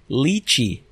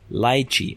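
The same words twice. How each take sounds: First: The word is said the American way. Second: The word is said the British way. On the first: "The Americans say lychee" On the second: "The British say lychee"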